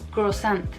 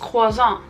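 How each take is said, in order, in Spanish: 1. Se dice con una pronunciación sencilla del español mexicano. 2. Se dice con una pronunciación francesa refinada. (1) "como lo decimos en México" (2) "se pronuncia súper fino y elegante en Francia"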